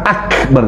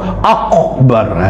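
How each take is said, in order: First: The k is a plain k sound. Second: The k is a deep throat q sound. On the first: The speaker calls it right. "Kaf ya kaf" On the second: The speaker calls it wrong. "jangan kof akbar"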